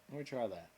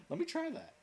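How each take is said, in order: First: Said in the usual way. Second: Sudden high squeak on "Let me try that."; playful high squeal; squeaky high. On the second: Pretend. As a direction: pop up into a silly falsetto.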